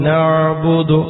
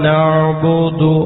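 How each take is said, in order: The two takes are said the same way.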